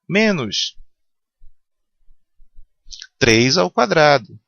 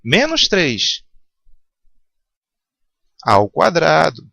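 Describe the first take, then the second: First: There is a pause right after the first word. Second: There is a pause right after the second word. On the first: Only the three is squared, then made negative. "terceiro exemplo. ... Então é menos três vezes três" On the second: The whole negative three is squared. "Agora no quarto exemplo"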